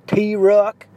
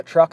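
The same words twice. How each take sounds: First: "T-Ruck" split into two syllables, tee-ruck; twangy mispronunciation. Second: Said in the usual way. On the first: Retold or imitated. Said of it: "she'd call a truck a".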